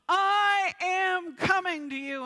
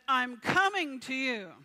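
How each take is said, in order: First: It is yelled at full volume. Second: It is said at normal volume.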